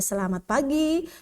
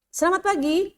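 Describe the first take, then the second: First: It is spoken at a normal pace. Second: It is spoken too quickly. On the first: The speaker calls it right. "Jadi wajar saja" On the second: The speaker calls it wrong. "itu terlalu cepat juga"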